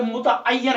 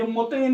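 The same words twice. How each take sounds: First: मुतअय्यन slowed out, mu-ta-ay-yan; correct pronunciation. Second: मुतैन run together in two syllables, mu-tain; wrong pronunciation. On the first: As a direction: stretch मुतअय्यन with a doubled y. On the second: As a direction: say मुतैन short, with no doubled y. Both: Shown as a demonstration. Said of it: "ये मुतैन नहीं है".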